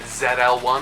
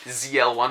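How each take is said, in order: First: The name is said the non-American way. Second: The name is said the American way.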